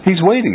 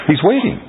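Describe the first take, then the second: First: Emphatic high repeat. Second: Pitched up high, rising at the end; emphatic high exclaim. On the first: Teacher to class, repeating that God waits, higher falling exclaim. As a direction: hammer it home from the top of the voice. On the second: Teacher to class, urging that God is waiting, high rising exclaim. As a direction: lift it high and let it climb. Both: Real, not acted.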